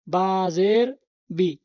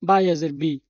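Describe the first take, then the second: First: বাজের বি said very slowly and clearly as বা-জের; teacher spells out বাজের বি carefully; slow, deliberate বাজের বি, each sound drawn out; correct reading. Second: Mock the common mistake বায়াজের বি; বায়াজের spoken with an extra ইয়া glide in the middle, a mocked error; wrong reading. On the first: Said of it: "তাহলে ইয়ার সাথে মিললে". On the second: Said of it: "অনেকে বলে". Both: Shown as a demonstration.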